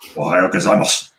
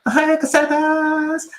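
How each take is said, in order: First: It is said in a gruff, masculine style. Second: It is said in a soft, feminine style.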